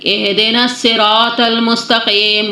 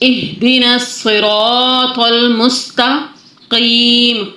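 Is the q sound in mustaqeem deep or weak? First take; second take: weak; deep. First: The q is made weak and unclear. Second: The q is made clearly deep in the throat. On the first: The speaker calls it wrong. "अगर मैं मजहूल तरीके से पढ़ूँ" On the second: The speaker calls it right. "इसको सही कैसे पढ़ेंगे?"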